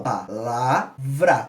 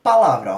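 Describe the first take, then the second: First: Palavra drawn out very slowly, pa-la-vra; syllable by syllable. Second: Said in the usual way. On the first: Shown as a demonstration. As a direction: say Palavra slowly, one breath per syllable. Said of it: "Cada vez que eu tenho uma expiração". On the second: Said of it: "Como é que eu falo?".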